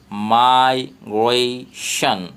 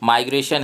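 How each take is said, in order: First: माइग्रेशन broken into slow separate syllables; slow syllable-split demo of माइग्रेशन. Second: Said in the usual way. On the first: Shown as a demonstration. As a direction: stretch माइग्रेशन out, syllable by syllable, very slowly. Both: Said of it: "इसको syllables में तोड़ करके लिखना है".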